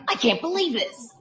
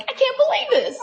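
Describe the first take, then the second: First: A touch of glum dismay; mild upset disbelief; dejected disbelief. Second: High, squealing delight; happy teen disbelief; overjoyed disbelief. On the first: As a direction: mutter it like a let-down owner. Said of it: "back to him". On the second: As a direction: gush like a thrilled teen. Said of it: "back to the daughter". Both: Retold or imitated.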